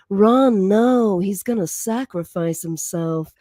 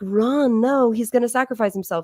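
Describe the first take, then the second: First: It is said in a sultry, seductive voice. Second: It is said in an ordinary speaking voice.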